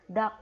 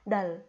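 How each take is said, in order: First: Only the k sound is heard at the end. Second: Only the l sound is heard at the end. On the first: The speaker calls it right. "Jadi kita lafalkan yang K" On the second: The speaker calls it wrong. "K-nya nanti nggak terbaca"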